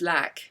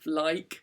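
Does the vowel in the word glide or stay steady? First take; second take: steady; glide. First: The vowel stays on one steady quality. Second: The vowel glides from one quality to another. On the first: "They produce a monophthong" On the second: "what's called a diphthong"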